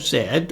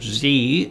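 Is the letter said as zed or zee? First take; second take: zed; zee. First: The letter is said zed, non-American style. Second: The letter is said zee, American style.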